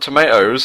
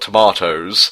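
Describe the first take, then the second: First: Tomatoes is said with an American pronunciation. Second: Tomatoes is said with a British pronunciation.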